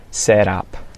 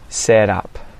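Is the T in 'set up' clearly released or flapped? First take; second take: flapped; flapped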